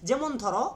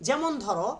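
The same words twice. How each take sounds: No difference in how they are said.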